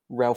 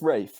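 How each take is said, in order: First: The name is said like 'Ralph', with an L. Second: The name is said like 'Rafe', without an L. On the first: This is how the name looks when read from the spelling. "on paper you go" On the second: This is how the actor's name is properly said. "objectively correct way to say it"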